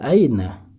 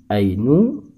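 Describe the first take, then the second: First: The word ends with the vowel a. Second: The word ends with the vowel u. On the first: The speaker calls it right. "harus dibaca aina" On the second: The speaker calls it wrong. "tidak boleh dibaca ainu"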